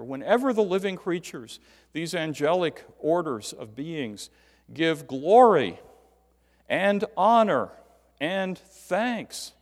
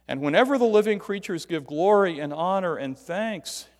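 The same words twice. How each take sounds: First: Deliberate item-by-item stress on "glory and honor and thanks"; emphasizing each word. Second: Emphatic continuous reading, "glory" through "thanks" without breaks; reading with every "and". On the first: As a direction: break out "glory", "and honor", "and thanks" with pauses between, each hit hard. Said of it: "He is emphasizing each word". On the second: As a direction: read "glory and honor and thanks" as one running phrase, each item linked by "and". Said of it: "he breaks it out by putting all the ands in". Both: Shown as a demonstration.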